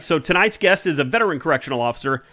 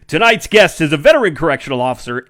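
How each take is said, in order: First: It is said in his normal speaking voice. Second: It is said in a put-on radio announcer voice.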